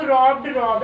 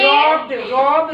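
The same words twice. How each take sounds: First: रॉब्ड and रॉब said at normal pace with a falling close; teacher confirming रॉब्ड, रॉब in a normal voice; plain repeat. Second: रॉब्ड drawn out slowly with a rise, then रॉब; teacher slowly modelling रॉब्ड, रॉब; slow pronunciation demo. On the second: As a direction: spell out रॉब्ड and रॉब slowly, each sound clear. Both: Shown as a demonstration. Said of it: "रॉब माने लूटना".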